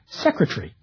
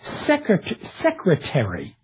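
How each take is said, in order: First: A syllable of the word is dropped. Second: Every syllable of the word is pronounced. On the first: "in British English" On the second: "in American"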